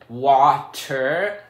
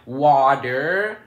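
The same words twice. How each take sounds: First: The middle consonant is a clear T sound. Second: The middle consonant sounds like a D. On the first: "I don't say water" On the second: "because I'm Minnesotan, I say water"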